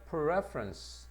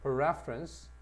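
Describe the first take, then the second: First: Preference를 아주 느리게, 첫 음절에 힘; preference 앞 강세. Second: Preference 첫 음절에 힘주어 짧게. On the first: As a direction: preference 첫 음절을 찍어 천천히 시범. (preference 앞 음절 강세) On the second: (preference 앞 강세 반복) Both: Shown as a demonstration. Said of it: "강세가 앞으로 갑니다".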